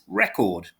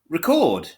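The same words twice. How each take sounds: First: The stress is on the first syllable. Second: The stress is on the second syllable. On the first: It is used as a noun. "But the noun is record" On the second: It is used as a verb. "So the stress is on the second half"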